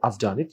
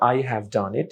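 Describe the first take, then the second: First: The word 'have' shrinks to a 'v' sound. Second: The word 'have' is said in full.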